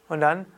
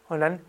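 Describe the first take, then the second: Both takes have the same delivery.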